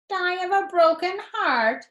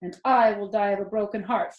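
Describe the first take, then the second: First: Much higher, sneering imitation of Wilbur; mocking mimicry. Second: A lightly voiced pig, sincere; mean every word of it; Wilbur's earnest plea. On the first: Templeton the rat mocking Wilbur's plea, sneering mimicry. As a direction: parrot him back with a sneer. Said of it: "he mimicked". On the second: Wilbur telling the rat he will die heartbroken, earnest. Wilbur's own line, later mocked.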